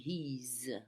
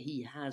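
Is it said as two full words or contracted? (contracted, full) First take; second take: contracted; full. First: The words are shortened into one syllable. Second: Both words are said fully and separately. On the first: The speaker calls it right. "on dit he's" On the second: The speaker calls it wrong. "on le prononce jamais he has"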